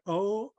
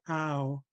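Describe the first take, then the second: First: The word is a plain, steady 'o' vowel. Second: The word is an 'ow' vowel that glides. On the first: This is how some other speakers say it. "some say "o."" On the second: This is how the speaker was raised to say it. "I was always um, brought up to say "ow.""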